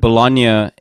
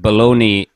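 First: The word has an Italian pronunciation. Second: The word has an anglicized English pronunciation. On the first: It is the usage in Italy. "you have to call it Bologna in Italy" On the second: It is the usage in Canada. "but Bologna in Canada"

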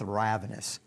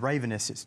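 First: The start does not sound like 'raven'. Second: The start sounds like the bird 'raven'. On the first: The speaker calls it right. "Let's go with ravenous" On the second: The speaker calls it wrong. "that sounds like a bird"

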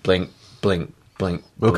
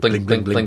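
First: The words are repeated at a slow, steady pace. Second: The words are repeated at a fast, hurried pace. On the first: The signal blinks at its normal rate. The speaker calls it right. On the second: The signal blinks too quickly from low resistance. The speaker calls it wrong.

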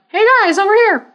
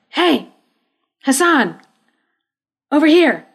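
First: It is said in a Mickey Mouse voice. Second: It is said in a normal voice.

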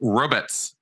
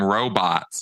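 First: The word is pronounced like ribbits. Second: The word is pronounced like robots. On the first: This imitates another person's odd pronunciation. The speaker calls it wrong. "He would call them ribbits" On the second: This is the usual pronunciation. The speaker calls it right. "He didn't call them robots"

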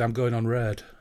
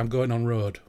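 First: The vowel in the last word sounds like E. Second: The vowel in the last word sounds like O. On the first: The speaker comes from East Hull. "if you're from Eastall, you say" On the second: The speaker comes from West Hull. "In Hull, you would say"

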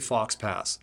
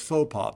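First: The x and s sounds are pronounced. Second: The x and s sounds are silent. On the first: The speaker calls it wrong. "they'll say Fox Pass" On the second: The speaker calls it right. "well, it's faux pas"

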